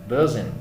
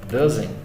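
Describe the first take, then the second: Both takes have the same delivery.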